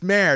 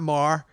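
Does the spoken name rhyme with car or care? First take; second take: care; car. First: The vowel rhymes with care. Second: The vowel rhymes with car. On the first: The speaker calls it right. "It's Mare" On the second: The speaker calls it wrong. "it's not Mar"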